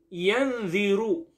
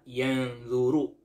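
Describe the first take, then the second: First: The second vowel sounds like i. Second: The second vowel sounds like u.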